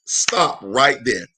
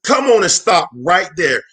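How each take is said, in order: First: A sudden low, deliberate pause; slow low stop. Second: Energetic repeat; louder call to stop. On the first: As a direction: drop low and slow it right down. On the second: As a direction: lift it, say it louder. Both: Real, not acted.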